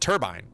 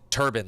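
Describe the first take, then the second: First: The second syllable sounds like 'bine'. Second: The second syllable sounds like 'ban'. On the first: The speaker calls it right. "but it's it's a turbine" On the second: The speaker calls it wrong. "They pronounce it turbine, like T U R B A N"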